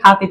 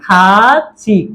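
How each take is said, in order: First: The middle consonant sounds like an aspirated th. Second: The middle consonant sounds like a ch. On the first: The speaker calls it wrong. "থিউত উপরে উঠে গেলে উচ্চারণটা হবে কি থ এর মতো" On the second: The speaker calls it right. "উচ্চারণটা হবে কিসের মতো? সিউতের মতো।"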